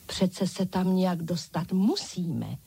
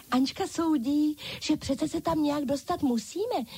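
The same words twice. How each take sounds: First: Said in the usual way. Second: High, bright chorus of dolls echoing Ančka; dolls calling out. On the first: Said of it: "soudila Ančka". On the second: A narrator's reading. Dolls echoing Ančka, high eager chorus. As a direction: call it back as an eager doll chorus, higher. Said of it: "zvolali všechny ostatní panenky".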